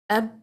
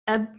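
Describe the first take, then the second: First: The final b stops short at the lips. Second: The same.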